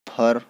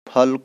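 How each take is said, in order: First: The word ends in an r sound. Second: The word ends in an l sound. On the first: This is the Nagpuri form. "ल र में ... बदल जाएगा" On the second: This is the standard Hindi form. "ल र में ... बदल जाएगा"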